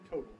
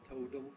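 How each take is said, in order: First: The T runs straight into the L, no vowel. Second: A short vowel is heard between T and L. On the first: "You don't normally have a vowel between the second T and the L, you say total" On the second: "with a little vowel in there"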